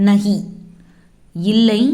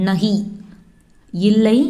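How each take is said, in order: Both takes have the same delivery.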